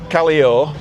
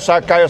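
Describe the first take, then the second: First: The double L is said as an L sound. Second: The double L is said as a Y sound. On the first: The speaker sounds like a foreigner. The speaker calls it wrong. "take me to Callio, yeah, then they'll charge you extra" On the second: The speaker sounds like a local. The speaker calls it right. "There's no L in it. A double L is a Y"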